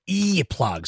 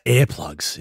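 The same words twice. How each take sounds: First: "earplugs" with a high, stretched EE at the start; demonstrated pronunciation. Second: "earplugs" said as AIR-plugs; imitated accent. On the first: Shown as a demonstration. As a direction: coach "earplugs" as EEE-plugs. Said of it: "So go, go". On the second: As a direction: mimic "earplugs" with an open AIR vowel. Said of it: "It's your accent".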